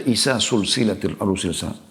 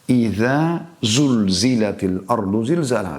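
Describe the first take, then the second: First: The z sounds are replaced by s sounds. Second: The words are read with clear z sounds. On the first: The speaker calls it wrong. "Bahkan ada yang membaca" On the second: The speaker calls it right. "Beda iza zal setelah zai zulzila"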